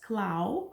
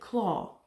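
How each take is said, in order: First: The vowel sounds like 'ow' in cow. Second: The vowel sounds like 'aw' in saw. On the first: The speaker calls it wrong. "I heard you guys pronounce it as clow" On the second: The speaker calls it right. "normally you would say it claw"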